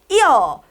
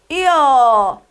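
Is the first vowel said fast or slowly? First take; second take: fast; slowly. First: The first vowel is said fast and short. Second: The first vowel is said slowly and fully.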